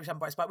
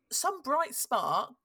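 First: Said in the usual way. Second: Slow, drawn-out "bright spark" with mock praise; ironic bright spark. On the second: Real, not acted. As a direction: stretch out "bright spark" sarcastically. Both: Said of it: "well, I say some bright spark".

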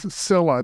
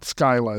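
First: Scylla said as SILL-a; preferred pronunciation. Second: Skyla said as SKY-la; rejected pronunciation. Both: Shown as a demonstration. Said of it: "the particular pronunciation that you prefer".

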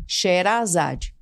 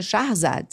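First: Sherazade drawn out slowly, she-ra-za-dji, Portuguese style with a long open a; brazilianized name. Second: Shahrzad with sh and a breathy h, two syllables, stress on zad; persian pronunciation. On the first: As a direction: stretch out the Brazilian version, Sherazade, syllable by syllable. (Sherazade bem devagar, abrasileirado, com dji no final) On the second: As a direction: give the correct Persian form, Shahrzad, against the Brazilian one. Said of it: "a pronúncia é". (Shahrzad, pronúncia persa correta, com h aspirado e tônica em zad) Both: Shown as a demonstration.

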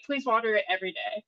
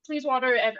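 First: Said in the usual way. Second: Put-on a faint Italian accent, cut off halfway. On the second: Quoting the Italian man who gave her a basil plant, in a faint Italian accent. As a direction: start the Italian man's line in a light Italian accent, then stop. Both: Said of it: "I'm not gonna do an Italian accent".

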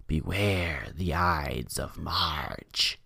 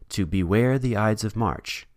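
First: Slow, low, hushed witch voice; evil witch voice. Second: Said in the usual way. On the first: Retold or imitated. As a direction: draw it out like a menacing witch. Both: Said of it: "in an evil witch voice".

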